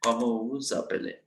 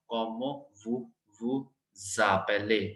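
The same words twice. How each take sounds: First: Vous appelez said voo a-play with no z sound; French, no liaison. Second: Vous vous appelez slowed, with a z sound before appelez; French liaison. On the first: Teacher correcting the class, no z sound. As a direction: drop the z between vous and appelez. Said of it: "जेड हमने pronounce नहीं करना". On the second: Teacher showing liaison to the class, slow. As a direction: link vous appelez as voo-za-play, drawn out. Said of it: "we will pronounce it in a z sound". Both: Shown as a demonstration.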